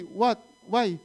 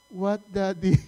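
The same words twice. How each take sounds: First: Short rising "What?" then "Why?"; curt questioning reply. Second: "What, Daddy?" as a respectful model answer; polite corrected reply. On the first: Retold or imitated. Father quoting what his son mustn't say, curt questioning reply. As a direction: mimic a child's offhand comeback. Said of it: "Don't talk like that". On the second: Shown as a demonstration. Father telling his son how to respond, polite corrected reply.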